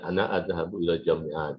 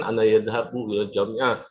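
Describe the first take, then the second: First: "adhabu" opening on a bare a-, no y; corrected form adhabu. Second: "yadhabu" with a wrong ya- prefix after "ana"; learner's error yadhabu. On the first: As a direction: say "adhabu" with the first-person a- prefix. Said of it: "karena saya sudah belajar nahu". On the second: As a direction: say "yadhabu", starting with a y-glide. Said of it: "dulu saya mengatakan". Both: Shown as a demonstration.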